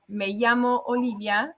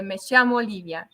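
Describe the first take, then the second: First: Llamo with a y sound, "yamo"; standard Spanish ll. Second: Llamo said "shamo", ll as sh; Argentinian sh for ll. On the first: To host, showing the usual Spanish llamo, y sound. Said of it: "en vez de decir". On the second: To host, showing her Argentine llamo with sh. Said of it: "the double L is, like, more of a sh". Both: Shown as a demonstration.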